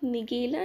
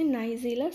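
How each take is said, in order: First: The first syllable is a short 'nih'. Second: The first syllable is a long 'nye'. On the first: The speaker calls it wrong. "इसे आप निगेला नहीं" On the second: The speaker calls it right. "बल्कि आप इसे नाइजेला seeds पढ़ते हैं"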